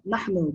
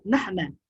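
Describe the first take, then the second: First: نحن said "nahnu", ending in oo. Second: نحن said "nahna", ending in ah. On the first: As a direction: pronounce نحن with a final -nu. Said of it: "not نحن". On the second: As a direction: pronounce نحن with a final -na. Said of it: "but نحن". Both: Shown as a demonstration.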